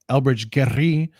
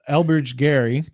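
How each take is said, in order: First: The name is said with a Spanish-style accent. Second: The name is said with a plain English accent.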